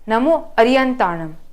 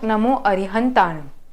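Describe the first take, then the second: First: A y sound replaces the h sound. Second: A clear h sound is in the middle. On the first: The speaker calls it wrong. "at times we say Namo Ariyantanam" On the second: The speaker calls it right. "and not Namo Arihantanam"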